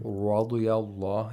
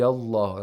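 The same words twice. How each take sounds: First: The r sounds like an English r. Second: The r is a single quick tongue tap. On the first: The speaker calls it wrong. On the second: The speaker calls it right.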